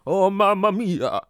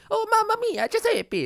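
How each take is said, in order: First: Slow, high, loud mock Italian; supposedly accurate Italian accent. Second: High-pitched, louder mock Italian; caricature Italian accent. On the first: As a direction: stretch out a hammy Italian exclamation. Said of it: "But if you go ... that's more, that's better". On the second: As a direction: squeal it as a cartoon Italian. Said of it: "If you're doing it right, if you're like". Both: Shown as a demonstration.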